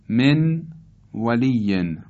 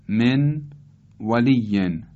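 No difference in how they are said.

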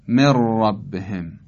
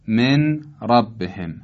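First: The n merges into a doubled r sound. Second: The n sound is pronounced before the r.

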